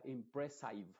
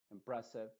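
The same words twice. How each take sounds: First: Slow impressive with a long AI diphthong, im-pre-SAIV; wrong impressive. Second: Impressive ending in a short IH, im-PRES-iv; impressive, reduced final vowel; right impressive. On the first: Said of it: "nunca se va a pronunciar como". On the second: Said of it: "siempre con una I modificada". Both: Shown as a demonstration.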